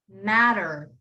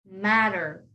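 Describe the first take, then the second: The two takes are said the same way.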